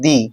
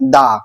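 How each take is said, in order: First: The vowel sounds like 'ee'. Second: The vowel sounds like 'uh'. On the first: The next word starts with a vowel. "তখন আমি উচ্চারণ করব দি" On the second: The next word starts with a consonant. "উচ্চারণ হবে দা"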